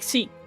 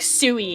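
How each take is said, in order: First: It has a short, clipped Japanese-style u vowel. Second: It has a longer, American-style u vowel. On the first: The speaker calls it right. "proper Japanese pronunciation... it's like a short U" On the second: The speaker calls it wrong. "sui is very American"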